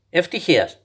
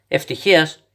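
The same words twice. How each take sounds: First: «Ευτυχίας» said as a plain answer with falling tune; flat statement. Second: «Ευτυχίας; » echoed as a question with rising tune; puzzled echo. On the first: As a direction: state «Ευτυχίας» calmly, tune dropping at the end. Grandpa answers child's question. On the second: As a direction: lift «Ευτυχίας. Child echoes answer in disbelief. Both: Acted.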